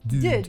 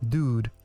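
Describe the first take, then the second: First: The vowel is a rounded French-style front u. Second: The vowel is said far back in the mouth. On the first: "if a French person were to say it, it would be more like dude" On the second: "Usually, Americans would pronounce the word dude as dude"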